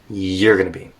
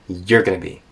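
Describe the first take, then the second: First: The words are linked and reduced together. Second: The words are linked and reduced together.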